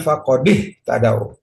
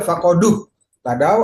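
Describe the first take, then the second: First: The d is followed by an i vowel. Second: The d is followed by a u vowel. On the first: The speaker calls it right. "harus dikasih harokat kasroh" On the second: The speaker calls it wrong. "Nggak boleh"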